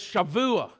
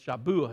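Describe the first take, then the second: First: The middle consonant is a V sound. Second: The middle consonant is a B sound. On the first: The speaker calls it right. "in the Hebrew, it's V" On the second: The speaker calls it wrong. "you mispronounce it. You say it's Shavua. It ain't a B"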